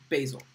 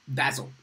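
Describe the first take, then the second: First: It is said with an American pronunciation. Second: It is said with a British pronunciation.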